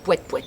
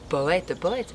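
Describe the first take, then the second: First: The phrase is said quickly. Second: The phrase is said slowly. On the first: It sounds like a car horn. "si on le dit vite, ça fait, oui, ça fait klaxon" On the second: It sounds more poetic and profound. "si on le dit plus lentement, ça donne quelque chose de plus poétique"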